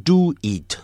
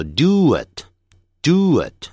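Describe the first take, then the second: First: "do it" with "it" said as a long "eat"; wrong vowel. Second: "do it" run together, oo sliding into a short i; linked sounds. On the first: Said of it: "eat已经不对了". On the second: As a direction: link "do it" into one smooth unit. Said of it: "就产生一个连音". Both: Shown as a demonstration.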